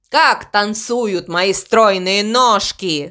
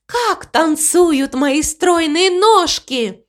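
First: Crow echoing joyfully. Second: High, slow, lilting delight; joyful cow. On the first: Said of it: "он рассмеялся так же радостно". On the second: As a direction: marvel at it in a raised, stretched-out voice. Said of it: "Мама Му радостно рассмеялась". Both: A narrator's reading.

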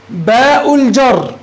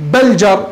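First: باء الجر with باء as a long, slow letter name; letter named in full. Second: بل جر run together, just a short b joined to الجر; letter sound only. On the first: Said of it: "لا تقول بل جر". (نطق باء الجر باسم الحرف ممدودًا) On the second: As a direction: say بل جر without naming the letter باء. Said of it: "لا تقول". (نطق بل جر بصوت الباء موصولًا) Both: Shown as a demonstration.

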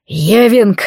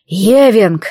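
First: Громкий яростный окрик; взреви имя во весь голос; рёв. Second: Громкий рычащий окрик; прорычи имя с яростью; рычание. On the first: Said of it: "взревел я". (яростный крик) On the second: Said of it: "зарычал я". (злобный рык) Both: Acted.

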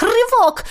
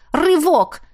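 First: High, loud straining cry; straining effort. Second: Straining. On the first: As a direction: heave with all your strength. Harder straining pull. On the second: Straining against the rope. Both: A narrator's reading.

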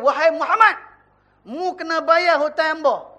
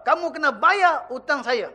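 First: A creditor demanding his debt in Kelantan Malay; Kelantan accent. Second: Said in the usual way. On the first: Retold or imitated. A creditor demands his debt from Muhammad, in Kelantan accent. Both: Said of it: "dia tak cakap bahasa Kelantan lah".

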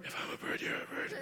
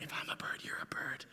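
First: Whispered with a laugh breaking through. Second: Breathy romantic whisper. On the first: Boy redoing his whispered love line, laughing. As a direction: whisper it and crack up. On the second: Young boy whispering a love line down the telephone game. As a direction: breathe it like a shy little Romeo. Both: Retold or imitated. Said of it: "I whisper it".

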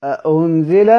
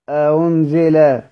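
First: أأنزل with a distinct stop on the second hamza; fully sounded hamza. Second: أأنزل slowly, second hamza between hamza and waw; eased hamza. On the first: Teacher contrasts readings of an example, full hamza in أأنزل. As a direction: articulate both hamzas in أأنزل, ending on a rise. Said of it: "يبان لك المحقق والمسهل". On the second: Teacher models a damma example, eased hamza in أأنزل. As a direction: soften the second hamza of أأنزل into a glide, falling at the end. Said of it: "وتجعل المضمومة بين الهمزة والواو". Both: Shown as a demonstration.

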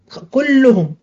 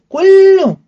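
First: Said in the usual way. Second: كلهم shouted out, much higher and louder; stressed word. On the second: Shown as a demonstration. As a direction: punch كلهم high and loud to mean all of them. (كلهم بصوت عالٍ ونبرة مرتفعة) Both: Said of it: "خلاص كلهم قطع دابرهم".

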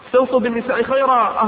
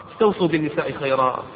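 First: Higher and louder urging of the command; emphatic repeat. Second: Said in the usual way. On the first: Acted. Preacher urging husbands, repeating the command louder and higher. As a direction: raise the voice to drive the command home.

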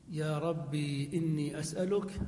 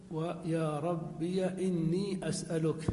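First: يا ربي with ربي ending in a long still ī, rabbī; ya sakin. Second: ربي said rabbiya, the final yā' carrying an open a; slow, give ربي as rabbiya with the yā' voweled with a; ya with fatha. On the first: Grammar teacher showing the first way to say it, rabbī with a still yā'. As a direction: say ربي as rabbī, the final yā' silent-voweled. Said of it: "فتقول". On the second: Grammar teacher showing the second way, rabbiya with an open yā'. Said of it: "ثم إثبات الياء ساكنة ومفتوحة". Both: Shown as a demonstration.

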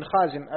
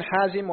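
First: خازم as khāzim, scraped خ first; dotted kha. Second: حازم as ḥāzim, pharyngeal ح first; undotted ḥa. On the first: Student reading names to his teacher, خازم with kh. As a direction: begin خازم with a velar kh. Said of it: "فإنه بخاء معجمة". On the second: Student reading names to his teacher, حازم with ḥ. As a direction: begin حازم with a breathy ḥ. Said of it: "فهو بالحاء المهملة". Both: Shown as a demonstration.

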